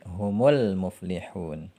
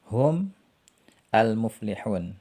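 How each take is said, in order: First: The words are joined with a linking vowel. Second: The two words are read apart, unlinked.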